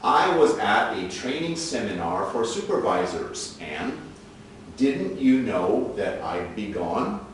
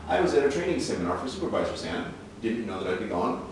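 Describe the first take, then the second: First: It is said slowly. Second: It is said fast.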